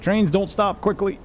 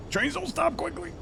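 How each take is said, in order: First: Higher, alarmed exclamation; panicked shout. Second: Very high, squeaky comic voice. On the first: Real, not acted. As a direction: cry out as the train overshoots. Train overshooting, panicked cry. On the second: Acted. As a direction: squeak it out in a cartoon voice. Same line repeated, squeaky voice.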